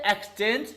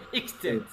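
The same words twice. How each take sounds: First: "exchange" said slowly with EKS at the start; wrong pronunciation. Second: Low, soft "exchange" starting IKS; dictionary pronunciation. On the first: Teacher forbidding the mistake, "exchange" wrongly begun with "eks". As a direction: open "exchange" on "eks", rising at the end. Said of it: "not, don't say exchange". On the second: Teacher correcting the class, "exchange" begun with "iks". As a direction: begin "exchange" with a short "iks", falling away. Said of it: "you have to say". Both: Shown as a demonstration.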